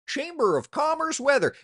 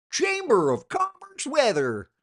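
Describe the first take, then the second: First: High, loud mocking quote of a disliked phrase. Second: Slow, high, loud sneering repeat of Chamber of Commerce weather; drawn-out mockery. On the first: Quoting a weather cliché he hates, mocking and loud. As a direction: sneer at the cliché. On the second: Repeating the hated phrase to viewers, slow and mocking. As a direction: stretch out the cliché with disdain. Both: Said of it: "It's like".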